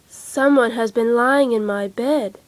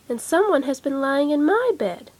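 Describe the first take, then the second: First: It is said in a great big voice. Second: It is said in a middle-sized voice.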